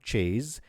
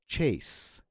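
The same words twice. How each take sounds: First: The final consonant is voiced like z. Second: The final consonant is voiceless like s. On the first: The speaker calls it wrong. "it's not chase" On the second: The speaker calls it right. "it still remains the S sound"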